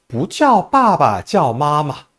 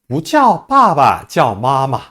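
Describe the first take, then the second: Both takes have the same delivery.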